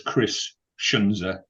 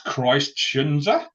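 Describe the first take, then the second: First: The first name ends without a t sound. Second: The first name ends with a clear t sound. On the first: "we leave the T off. It's almost like a silent T" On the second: "The guy's called Christ?"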